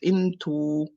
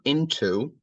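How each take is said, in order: First: The final vowel stays flat without a glide. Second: The final vowel glides toward a W sound. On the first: The speaker calls it right. "It's into, into. ... in Arabic, it's a flat sound" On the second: The speaker calls it wrong. "it's not into, like I'm going into blah blah blah"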